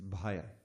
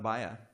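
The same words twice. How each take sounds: First: The first consonant has a puff of air. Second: The first consonant has no puff of air. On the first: The speaker calls it right. "it's bhaya" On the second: The speaker calls it wrong. "It's not bhaya"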